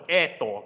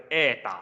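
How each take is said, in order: First: Edo ending on a full, rounded o; wrong O ending. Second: Ada with long first vowel, ending in short ah; O reduced to A. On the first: Teacher showing what not to say, Edo with O ending. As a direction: keep the last vowel of Edo as written, an o. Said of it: "後邊嗰個唔係讀Edo嘅". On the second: Teacher correcting the reading, Ada with ah ending. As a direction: turn the final vowel of Ada into a light ah. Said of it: "叫Ada". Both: Shown as a demonstration.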